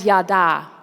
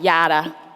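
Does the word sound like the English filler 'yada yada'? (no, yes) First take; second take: no; yes. First: It is pronounced unlike the English filler 'yada'. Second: It is pronounced like the English filler 'yada'. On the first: The speaker calls it right. "it was pronounced that way" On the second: The speaker calls it wrong. "I just thought it said yada. You know, yada, yada, yada"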